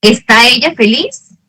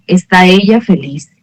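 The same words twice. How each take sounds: First: ¿Está ella feliz? with the pitch rising at the end on ella feliz; question intonation. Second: ¿está ella feliz? said with the pitch falling at the end like a statement; falling intonation. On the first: (entonación de pregunta, ¿Está ella feliz? subiendo al final) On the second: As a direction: let ¿está ella feliz? drop at the end, flat and declarative. (entonación que baja, ¿está ella feliz? como afirmación) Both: Shown as a demonstration. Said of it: "el tono de la voz que nosotros cambiamos".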